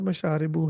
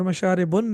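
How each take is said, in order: First: The word ends on a short u vowel. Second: The word ends with an added n sound. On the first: The speaker calls it right. "बल्कि ... मशारिबु" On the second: The speaker calls it wrong. "मशारिबुन नहीं है"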